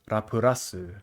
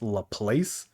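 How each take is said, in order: First: The name has four syllables ending in rasu. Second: The name ends with a place sound. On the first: "In Japanese" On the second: "the English dub pronounces it as La Place, which I think is fucking stupid"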